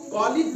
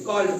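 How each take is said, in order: First: The ending is said as an extra syllable. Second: The ending is joined without an extra syllable. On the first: The speaker calls it wrong. "कालिड नहीं पढ़ते हैं" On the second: The speaker calls it right. "बल्कि कॉल्ड पढ़ते हैं"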